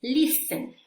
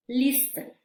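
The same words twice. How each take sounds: First: "Listen" said LIS-en, no t; higher, louder "Listen" with no t; teacher demo of "Listen", t dropped; silent t. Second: "listen" again LIS-en, no t; rising repeat of "listen", t silent. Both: Shown as a demonstration. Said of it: "la letra T".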